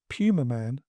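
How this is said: The name is said with a British pronunciation. The speaker calls it right. "which is the correct pronunciation"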